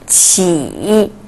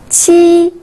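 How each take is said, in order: First: The pitch dips low then rises. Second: The pitch stays high and level.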